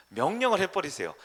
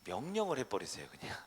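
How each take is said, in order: First: 명령을 hit hard and louder; emphatic repeat. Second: Said in the usual way. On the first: Shown as a demonstration. Pastor repeats to congregation, stressing 명령을 loudly. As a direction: punch the word 명령을 with force.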